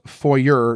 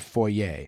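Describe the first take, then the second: First: The word ends with an 'er' sound. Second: The word ends with an 'ay' sound. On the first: The speaker calls it right. "Another fake French word, foyer, which is pronounced foyer" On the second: The speaker calls it wrong. "not foyer"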